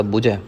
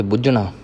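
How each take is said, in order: First: ਬੁਝੈ with a light j-like middle; soft jh. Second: ਬੁਝਣਾ with a weighty, toned jh; heavy jh. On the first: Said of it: "ਇੱਥੇ ਪਾਠ ਪੋਲਾ ਹੋਵੇਗਾ". (ਬੁਝੈ ਦਾ ਪੋਲਾ ਪਾਠ) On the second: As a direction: press on the jh of ਬੁਝਣਾ. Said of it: "ਭਾਰਾ ਹੋਵੇਗਾ ਪਾਠ". (ਬੁਝਣਾ ਦਾ ਭਾਰਾ ਪਾਠ) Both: Shown as a demonstration.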